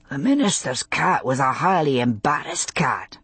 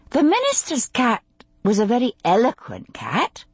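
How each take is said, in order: First: Lightly voiced male character, understated; a hint of a bashful man; man's game reply. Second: Higher, careful woman's voice; tactful, higher-pitched game turn; delicate. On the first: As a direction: answer her turn in a modest man's voice. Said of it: "he said". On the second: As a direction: venture it delicately, testing the ground. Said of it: "she said delicately". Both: A narrator's reading.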